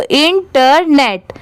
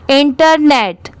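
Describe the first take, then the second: First: "internet" slowly in three parts, in, ter, net; syllable by syllable. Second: Said in the usual way. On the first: Shown as a demonstration. Teacher joining up the parts for learners, "internet" slowly by syllables. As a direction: break "internet" into careful separate pieces. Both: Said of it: "अब इसे साथ में मिलाएंगे".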